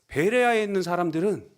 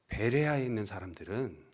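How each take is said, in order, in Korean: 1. 감탄하며 칭찬하는 말투로 말합니다. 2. 비난하며 핀잔을 주는 말투로 말합니다. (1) "칭찬이나 덕이 되는 정보를 전하려는 이런 말투처럼 들립니다" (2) "뭔가 험담을 하거나 핀잔을 주려는 이런 말투 같습니다"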